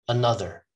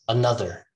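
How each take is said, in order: The two takes are said the same way.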